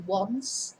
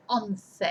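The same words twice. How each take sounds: First: "once" as one syllable, "wunss"; English pronunciation. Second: "once" as two syllables, "ON-theh"; Spanish pronunciation. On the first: Teacher contrasting what we say in English, English pronunciation. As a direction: say "once" with an opening w. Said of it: "So we say once". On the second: Teacher contrasting what they say in Spanish, Spanish pronunciation. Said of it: "and they say once". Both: Shown as a demonstration.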